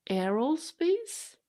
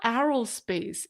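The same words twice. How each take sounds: First: Aerospace with the vowel of hair, slow, rising like a question; corrected vowel. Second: Aerospace with the A of arrow, aero as AIR-oh-spayce with an open a; wrong vowel. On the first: Streamer trying the fan's hair-like aerospace, unsure. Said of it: "when you say the word hair". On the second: Streamer showing her old arrow-like aerospace. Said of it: "like arrow, shooting an arrow". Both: Shown as a demonstration.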